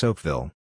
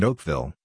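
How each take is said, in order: First: Said in the usual way. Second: Oakville with the stress moved to VILLE; French-style stress. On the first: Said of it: "So it's Oakville". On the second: Shown as a demonstration. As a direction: lean on the last syllable of Oakville, as in French. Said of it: "that would be French".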